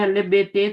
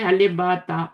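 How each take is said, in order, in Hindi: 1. अक्षरों के नाम 'ay' स्वर पर खत्म होते हैं। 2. अक्षरों के नाम 'ah' स्वर पर खत्म होते हैं। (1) "ये बहुत बड़ी गलती है" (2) "अरबी में"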